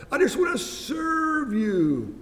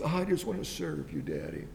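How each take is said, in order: First: Much higher and louder, slow and pleading; high pleading son. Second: Low, soft and meek; humble son. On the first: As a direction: cry it up high to Dad, slow and earnest. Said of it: "his attitude is". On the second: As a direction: drop low and hush, humbly offering. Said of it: "But the son's attitude was". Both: Retold or imitated.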